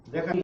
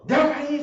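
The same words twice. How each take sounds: First: Said in the usual way. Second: High, raised imitation of a parent yelling; a parent's shouted command, much higher; mock yell. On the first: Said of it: "con su voz normal". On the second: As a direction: yell the order like a fed-up parent. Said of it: "se oye el grito".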